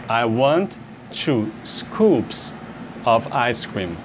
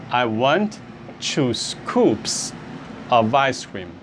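First: Very slow, each word spaced out; slow teaching repeat. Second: Said in the usual way. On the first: Shown as a demonstration. Teacher slowing the phrase down for students. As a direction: spell it out slowly so students can copy. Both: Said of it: "você diria".

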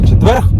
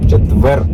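First: "четверг" with an added final kh sound; higher, louder "четверг", stressing the extra final consonant; wrong pronunciation. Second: "Четвер" ending on r, no g; correct pronunciation. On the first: Speaker mocks own slip for commenters, "четверг" ending in kh. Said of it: "Не четверг". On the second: Speaker shows commenters the right form, "Четвер" ending on r. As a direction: say "Четвер" with no final g or kh sound. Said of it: "правильно, мене не поправили". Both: Shown as a demonstration.

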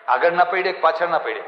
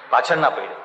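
First: આગળના raised and stressed as a question; stress on the choice. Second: પાછળના said lower, with falling stress; stressed answer. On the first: (પ્રશ્નમાં આગળના પર ભાર) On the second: (જવાબમાં પાછળના પર નીચો ભાર) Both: Shown as a demonstration.

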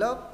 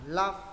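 First: "love" with a short, closed vowel like Vietnamese ơ; wrong vowel in love. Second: "love" with an open A vowel, like "laf"; A sound in love. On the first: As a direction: say "love" as "lớp", rising at the end. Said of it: "đừng đọc là love". (đọc "love" sai thành âm ơ) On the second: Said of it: "Âm nó âm A phải đọc là love". (đọc "love" với âm A mở) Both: Shown as a demonstration.

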